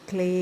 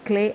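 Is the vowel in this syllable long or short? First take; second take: long; short. First: The vowel is said long. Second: The vowel is said short. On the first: The speaker calls it right. "దానికి లావత్తుంది" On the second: The speaker calls it wrong. "దాన్ని క్లే అనకూడదు"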